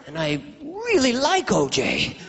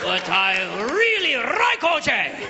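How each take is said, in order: First: Slow, high plea on "really like"; hammed-up anguished hesitation; pained reluctance. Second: Slow, high mock Japanese accent; drawn-out Japanese-accented protest; hammed-up Japanese caricature, stretched on "like". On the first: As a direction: stretch it out, torn over the scheme. Acted cop torn over framing. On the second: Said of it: "All the way to Japan".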